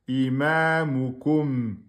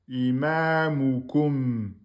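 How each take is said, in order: The two takes are said the same way.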